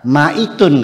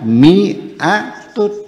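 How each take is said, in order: First: The first syllable has the vowel a. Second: The first syllable has the vowel i. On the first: It follows the written letters literally. The speaker calls it wrong. "kalau dibaca maitun" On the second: It follows the accepted reading. The speaker calls it right. "ternyata dibacanya mi'atun"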